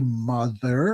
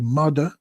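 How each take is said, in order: First: The middle consonant is a 'th' sound. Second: The middle consonant is a 'd' sound. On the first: "we wouldn't say mother" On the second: "pronounce T H words with has a D"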